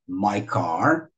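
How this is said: Only the second word is stressed. The speaker calls it right. "o my não é igual ao car"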